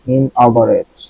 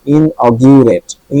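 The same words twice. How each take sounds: First: Inaugurate said with ga in the middle, in-aw-ga-rate; ga pronunciation. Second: Inaugurate drawn out slowly, the gu said as gyu, in-aw-gyu-rate; slow corrected pronunciation. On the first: Teacher's first take before correcting the gu sound. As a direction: say inaugurate with a plain ga, the first try. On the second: Teacher showing students the gyu sound, slow and deliberate. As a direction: stretch Inaugurate and say gyu, not ga, in the middle. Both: Shown as a demonstration. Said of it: "জিইউ গা না হয়ে জিইউ গিউ হয়েছে".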